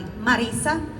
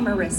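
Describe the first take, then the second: First: The R is rolled. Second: The R is said without a roll. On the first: This is how the name is properly pronounced. "how you pronounce it is uh, Mari Marisa" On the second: This is an acceptable version others may use. "you could call me Marissa. I don't mind"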